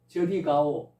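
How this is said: It is said as a firm order. The listener is told to go over there. "명령했으니까 명령문이죠"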